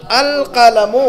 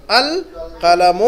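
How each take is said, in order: First: Said in the usual way. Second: القلم stretched very slowly, each sound held; teacher slowly modelling القلم for students; drawn-out model reading. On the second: Shown as a demonstration. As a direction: draw out القلم for learners to repeat. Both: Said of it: "اس کو کیسے پڑھیں گے؟".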